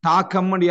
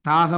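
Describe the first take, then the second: First: The middle consonant is a hard k sound. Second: The middle consonant is a soft g sound. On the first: The speaker calls it wrong. "தாக்கம் யாரும் உச்சரிக்கிறலே" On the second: The speaker calls it right. "தாகம் என்று தான் என்ன செய்ய உச்சரிப்போம்"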